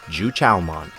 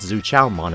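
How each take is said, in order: First: The name begins with a J sound. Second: The name begins with a Z sound. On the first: This is the speaker's own way of saying it. "That's how I pronounce it, coming from a Chinese background" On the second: This is a way others say it. "I've also heard Zu Chaomon as well"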